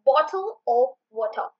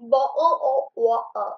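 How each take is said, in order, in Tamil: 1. t ஒலிகள் தெளிவாக உச்சரிக்கப்படுகின்றன. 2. t ஒலிகள் குரல்வளை நிறுத்தத்தால் விடுபடுகின்றன.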